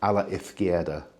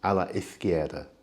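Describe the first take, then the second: First: The z is said like th. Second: The z is said like th.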